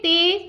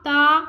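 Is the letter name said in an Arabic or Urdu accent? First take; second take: Urdu; Arabic. First: It is said in Urdu style, ending in 'e'. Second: It is said in Arabic style, ending in 'a'. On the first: The speaker calls it wrong. "Urdu तलफ़्फ़ुज़ से परहेज करें" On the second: The speaker calls it right. "अरबी लहजे में अदा करें"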